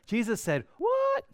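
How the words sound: The question is said with surprised, incredulous inflection. The speaker calls it right. "you have to say it with the right inflection"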